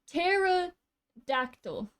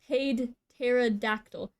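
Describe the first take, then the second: First: The word starts with a silent P. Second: The word starts with a sounded P. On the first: The speaker calls it right. "I shouldn't be pronouncing P" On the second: The speaker calls it wrong. "I started pronouncing the P"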